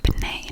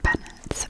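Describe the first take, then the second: First: The name ends with a French-style 'nay' sound. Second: The name ends with an English-style 'nit' sound. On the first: The speaker calls it right. "to be pronounced Benet" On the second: The speaker calls it wrong. "not Bennett"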